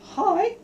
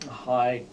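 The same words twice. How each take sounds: First: The voice is pitched high. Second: The voice is pitched very low.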